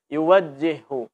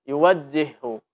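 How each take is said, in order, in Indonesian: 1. Huruf j yang ganda diucapkan dengan lemah dan tidak jelas. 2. Huruf j yang ganda diucapkan dengan lemah dan tidak jelas.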